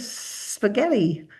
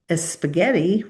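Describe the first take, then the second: First: The word starts directly with the s sound. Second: An extra vowel sound comes before the s. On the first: The speaker calls it right. "we'll say teeth together" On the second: The speaker calls it wrong. "instead of saying a spaghetti"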